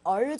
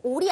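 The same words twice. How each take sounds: First: "all" with an open "aw" vowel; correct "all" sound. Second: "all" as a full Korean-style "ol"; mistaken, rounded vowel in "all"; wrong "all" sound. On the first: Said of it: "정도로 내주셔야 돼요". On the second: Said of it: "all이 아니고요". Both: Shown as a demonstration.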